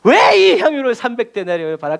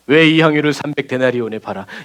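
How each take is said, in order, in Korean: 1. 이 질문은 격분하고 못된 목소리로 말합니다. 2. 이 질문은 차분하고 부드러운 목소리로 말합니다. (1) "아주 성경에 지랄 맞은 거죠" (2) "이렇게 생각하면 안 돼요"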